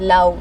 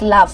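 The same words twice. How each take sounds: First: The vowel sounds like an ow sound. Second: The vowel is a short uh sound. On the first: The speaker calls it wrong. "We don't have that ow sound there" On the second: The speaker calls it right. "No, it's love"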